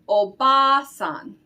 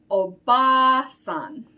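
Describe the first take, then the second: No difference in how they are said.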